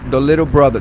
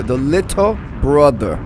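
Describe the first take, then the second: First: Said in the usual way. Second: LITTLE BROTHER stretched out word by word; deliberate, spaced-out "little brother"; drawn-out repeat. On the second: Retold or imitated. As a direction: say "little brother" slowly, each word separate. Repeats the title more deliberately.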